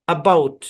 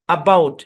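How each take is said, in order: The two takes are said the same way.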